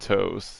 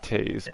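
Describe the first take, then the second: First: The name is said with an 'oh' vowel. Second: The name is said with an 'ay' vowel. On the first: The speaker calls it wrong. "gonna pronounce it toes. That's the problem" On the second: The speaker calls it right. "But it's pronounced Tays"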